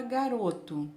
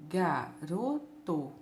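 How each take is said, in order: First: Said in the usual way. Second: "garoto" slowly split as ga, ro, to; syllable by syllable. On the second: Shown as a demonstration. Teacher shows pupils three syllables, "garoto" split ga, ro, to. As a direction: break "garoto" into three low, separate beats. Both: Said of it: "em três partes".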